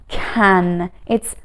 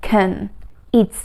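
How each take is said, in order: Both takes have the same delivery.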